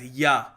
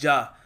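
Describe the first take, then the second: First: The word starts with a Y sound. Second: The word starts with a J sound. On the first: "in Nordic countries these guys pronounce J A as" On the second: "over here in India we will pronounce this as"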